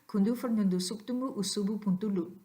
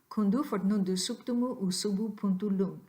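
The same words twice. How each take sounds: First: The phrase is said at a fast pace. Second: The phrase is said at a moderate pace.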